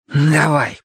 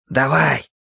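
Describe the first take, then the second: First: Word let out on a heavy breath; exhaled, breath-laden go-ahead; noisy exhale. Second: Said in the usual way. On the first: A narrator's reading. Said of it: "шумно выдохнул Таэл".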